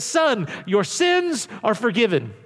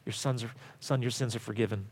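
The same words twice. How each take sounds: First: Slow deliberate quote. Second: Much softer, lower, gentle; hushed quote. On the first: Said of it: "and he says". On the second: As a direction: say it as a tender hush. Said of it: "and Jesus says". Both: Shown as a demonstration.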